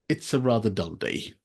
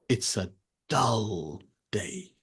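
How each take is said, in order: First: The tone stays even with no word stressed. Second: The word dull is strongly stressed. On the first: "a consistent tone throughout the whole sentence" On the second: "you're really emphasizing the word dull"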